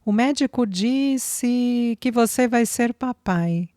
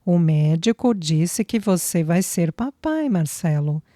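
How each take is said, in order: First: Higher, slow and tender, voice thick with feeling; sweet, choked with emotion. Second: Said in the usual way. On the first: A narrator's reading. Flávia telling Marcelo he will be a father, tender and choked. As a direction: deliver the news with sweetness, on the edge of tears. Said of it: "Flávia avisou com grande paixão e voz embargada de emoção". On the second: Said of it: "Tornou Flávia com emocionante felicidade em lágrimas".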